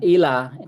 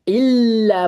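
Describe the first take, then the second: First: The L sound is short, not held. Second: The L sound is held long. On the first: The speaker calls it wrong. "Kalau ina salah" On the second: The speaker calls it right. "Illa harus ditahan dulu"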